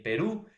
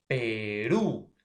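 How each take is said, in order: First: Said in the usual way. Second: Perú drawn out, RÚ loud and lifted; stress on RÚ. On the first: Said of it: "Por ejemplo". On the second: Shown as a demonstration. Teacher showing why it is aguda, stressing RÚ in Perú. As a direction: stretch Perú and punch the final RÚ. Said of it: "la mayor fuerza de voz en la última sílaba".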